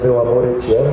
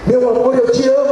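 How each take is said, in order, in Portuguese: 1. É dita de forma contida, discreta. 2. É dita de forma grandiosa, teatral. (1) "o cara estava lá dizendo" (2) "eu vinha do teatro"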